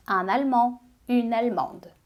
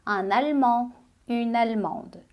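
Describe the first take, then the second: No difference in how they are said.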